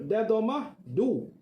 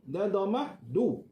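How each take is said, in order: Both takes have the same delivery.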